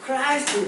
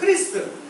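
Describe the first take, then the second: First: The first vowel is an 'eye' diphthong. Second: The first vowel is a short 'ee' sound. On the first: "미국식으로 하니까 크라이스트" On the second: "크리스도교 크리스트 크리스찬 그러는데"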